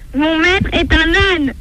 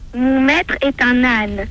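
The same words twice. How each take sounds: First: It is said loudest of all. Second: It is said in a small, quiet voice.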